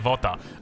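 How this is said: The word begins with a V sound. "if you're Iranian, it's simple. It's Vota v Vota"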